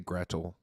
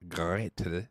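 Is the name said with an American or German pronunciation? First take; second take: American; German. First: The name has an American pronunciation. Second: The name has a German pronunciation. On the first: "I say Gretel. It's the American, correct American" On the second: "the German is Gretel"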